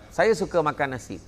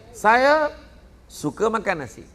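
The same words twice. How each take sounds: First: The sentence is said straight through without a pause. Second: There is a pause after the word saya.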